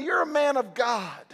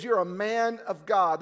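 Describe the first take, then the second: First: Called out with force, stress on You're; Paul to Timothy, a rousing shout; fervent charge. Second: Said in the usual way. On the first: Acted. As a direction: declare it like a father's charge. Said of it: "and say". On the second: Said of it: "Timothy, he says".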